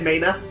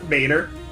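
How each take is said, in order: First: The final r is dropped, Maine style. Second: The final r is pronounced.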